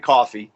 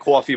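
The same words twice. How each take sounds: First: It is said without a New York accent. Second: It is said in a New York accent.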